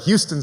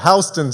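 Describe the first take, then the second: First: It is said with the Texas city's pronunciation. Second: It is said with the local New York pronunciation. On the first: The speaker assumed the familiar hometown name. "I'm from Texas, so of course I thought it was the Houston station" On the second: This is how the local station name is said. "the conductor said"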